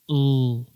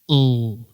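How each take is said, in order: First: The L sound is strong and loud. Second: The same.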